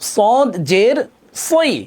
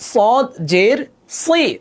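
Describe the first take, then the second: No difference in how they are said.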